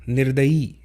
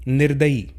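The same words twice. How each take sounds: The two takes are said the same way.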